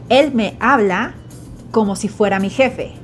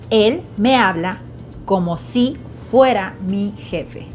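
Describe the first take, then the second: First: It is said at normal native speed. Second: It is said a little more slowly.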